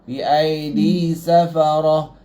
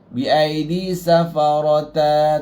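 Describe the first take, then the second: First: The last word ends with a stopped h sound. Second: The last word ends with a voweled t sound. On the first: The speaker calls it right. "Kena jadi ha" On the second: The speaker calls it wrong. "Dia tak boleh bi aidi safarata, tak boleh"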